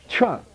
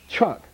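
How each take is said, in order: No difference in how they are said.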